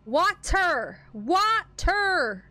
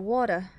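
First: "Water" pulled apart into two high, stretched syllables; over-pronounce "Water" as wah-ter, pitch raised; corrective over-enunciation. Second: "Water" low and quick, in one run; habitual odd pronunciation. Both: Shown as a demonstration. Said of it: "Why do I say it like that?".

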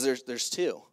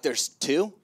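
First: "There's, there's two" said low, falling on TWO; stated as fact. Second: "There's two?" rising on TWO; baffled question. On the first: Wife passing on the news, "two" stated with a fall. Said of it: "She goes". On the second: Husband echoing his wife's news, "two?" as a baffled question. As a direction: ask "two" back in disbelief, pitch lifting at the end. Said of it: "And I'm like". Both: Retold or imitated.

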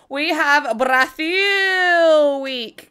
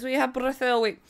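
First: "Brazil" stretched very long, slow; drawn-out Brazil. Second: Said in the usual way. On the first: Real, not acted. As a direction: hold the last syllable of "Brazil" like an announcer. Hypes the week's theme.

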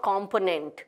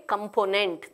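First: Component starting "kom", with an open o; wrong pronunciation. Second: Component starting with a weak "kum"; correct pronunciation. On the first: Teacher repeating the error, mispronounced. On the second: Teacher repeating the model, correctly pronounced. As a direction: reduce the start of component to "kuhm". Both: Shown as a demonstration. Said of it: "Not component".

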